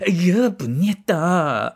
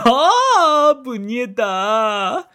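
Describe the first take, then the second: First: It sounds like grossed-out disgust. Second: It sounds like happy delight.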